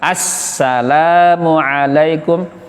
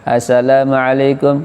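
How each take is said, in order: First: The s sound is held long and firmly pressed. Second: The s sound is short and not pressed. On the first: The speaker calls it right. "Kalau salam tegas" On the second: The speaker calls it wrong. "Jangan assalamualaikum, keliru karena ada tasdidnya"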